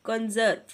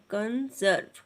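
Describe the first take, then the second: First: Said in the usual way. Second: conserve split into कं... जर्व; teacher's measured two-part conserve; syllable by syllable. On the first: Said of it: "syllables को आपने इस तरह से अलग". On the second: Shown as a demonstration. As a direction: sound out conserve in two separate beats. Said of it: "इस तरह से अलग करना है".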